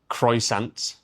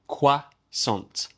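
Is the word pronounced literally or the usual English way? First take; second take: literally; usual way. First: It is pronounced literally, sound by sound. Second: It is pronounced the usual English way. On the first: The speaker calls it wrong. "It looks like croissant" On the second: The speaker calls it right. "but we say croissant"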